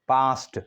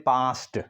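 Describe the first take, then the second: Both takes have the same delivery.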